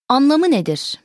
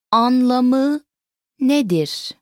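First: Said in the usual way. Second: Slow, two words set well apart; broken down. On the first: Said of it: "Once again". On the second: Shown as a demonstration. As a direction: stretch each word and pause between them. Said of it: "Let's break it down".

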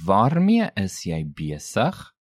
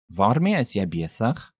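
First: Slow "Waarmee is jy besig?" rising on "besig"; slow, rising question. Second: Said in the usual way. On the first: Shown as a demonstration. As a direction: space out "Waarmee is jy besig?", lifting the end of "besig". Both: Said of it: "Note again the rising intonation".

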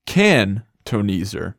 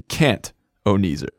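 First: "can-toneser" slow, broken after "can"; word split demo. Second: "can't-oneser" broken after the t; word split demo. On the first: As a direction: pause between "can" and "toneser". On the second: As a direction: close "can't" on its t, pause, then "oneser". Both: Shown as a demonstration. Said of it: "not a can't-oneser".

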